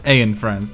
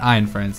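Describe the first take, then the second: First: The first word sounds like 'ah-en'. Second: The first word sounds like 'eye-n'. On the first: The speaker calls it right. "It's Aen Friends. A E N" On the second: The speaker calls it wrong. "It's not Ein Friends"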